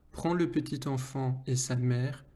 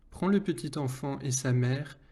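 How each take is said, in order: Both takes have the same delivery.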